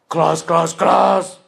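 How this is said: It is said in a king's voice. "King's voice"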